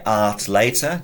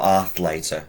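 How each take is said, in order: First: The middle consonant is a plain t sound. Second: The middle consonant is a th sound. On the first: "just with a T" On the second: "with a th"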